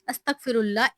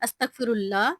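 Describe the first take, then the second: The two takes are said the same way.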